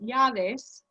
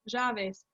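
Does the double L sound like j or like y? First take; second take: y; j. First: The double L is pronounced with a y sound. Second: The double L is pronounced with a j sound. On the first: This is the form taught in school. "which is that double L, has a y sound" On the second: This is a regional dialect's form. "she called them llaves, j, j"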